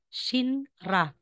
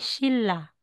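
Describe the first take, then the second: First: The middle is pronounced with an 'nr' sound. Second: The middle is pronounced with an 'll' sound. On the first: The speaker calls it wrong. "Babasahin natin ito" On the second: The speaker calls it right. "instead na sasabihin Shinra, magiging Shilla"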